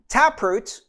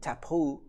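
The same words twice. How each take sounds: First: It is said with a plain English accent. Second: It is said with a French accent.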